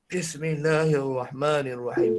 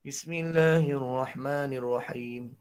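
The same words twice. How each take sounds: First: Slow Bismillahirrahmanirrahim, lifting only a little; low voice, still can't lift; low voice that can't rise. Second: Slow, low and soft Bismillahirrahmanirrahim, stuck down low; low voice that can't rise. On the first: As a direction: strain upward and fail. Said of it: "Tak boleh-boleh naik". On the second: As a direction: recite it low and slow, unable to lift. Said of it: "Suara rendah". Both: Shown as a demonstration.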